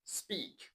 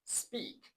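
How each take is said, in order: The two takes are said the same way.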